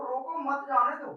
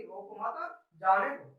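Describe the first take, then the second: First: "रोको" set apart, "मत जाने दो" run together; group "मत" with "जाने दो", meaning stop him; pause after रोको. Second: Slow "रोको मत", a break, then "जाने दो"; pause after मत. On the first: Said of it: "आप रोकना चाह रहे हैं". ("रोको" पर रुककर "मत जाने दो" साथ में) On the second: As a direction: keep "रोको मत" together, meaning let him go. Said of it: "तो व्यक्ति वह चला जाएगा". ("रोको मत" साथ में, फिर रुककर "जाने दो") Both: Shown as a demonstration.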